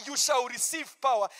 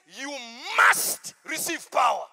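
First: Said in the usual way. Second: "must" hit hard and loud, whole line louder; stress on must. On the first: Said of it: "It doesn't say". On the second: Shown as a demonstration. Preacher correcting the verse, pressing "must" loudly. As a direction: punch "must" like a command. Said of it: "It says".

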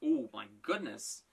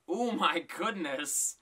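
First: Said in the usual way. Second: Slow drawn-out. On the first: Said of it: "repeated with a slow drawn-out take". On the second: Real, not acted. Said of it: "repeated after the plain take".

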